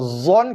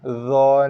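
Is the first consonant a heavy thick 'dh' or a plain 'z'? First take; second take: plain z; heavy dh. First: The first consonant is a plain 'z' sound. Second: The first consonant is a heavy, thick 'dh'. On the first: The speaker calls it wrong. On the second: The speaker calls it right.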